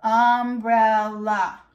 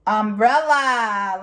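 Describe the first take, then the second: First: "Umbrella" in three separate beats, um, brel, la; split into syllables. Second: Said in the usual way. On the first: Shown as a demonstration. Teacher feels chin with children, "Umbrella" split in three. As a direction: break "Umbrella" slowly into its pieces. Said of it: "put our hand under our chin and feel". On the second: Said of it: "We have a".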